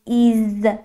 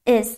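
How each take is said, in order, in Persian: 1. مصوت یک صدای ee بلند است. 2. مصوت یک صدای i کوتاه است. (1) "نمیگیم is ای کشیده" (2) "یه ای کوتاه تلفظ میکنیم"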